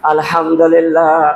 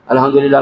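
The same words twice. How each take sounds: First: It is said slowly and carefully. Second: It is said quickly and hurriedly.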